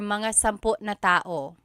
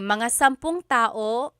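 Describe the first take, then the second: First: The linker is a separate word, 'na'. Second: The linker is joined to the number as 'ng'.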